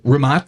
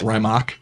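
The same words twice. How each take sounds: First: The name is said with its native pronunciation. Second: The name is said with a common anglicized pronunciation. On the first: The speaker calls it right. "the correct pronunciation" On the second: The speaker calls it wrong. "you'll hear a lot of people call it"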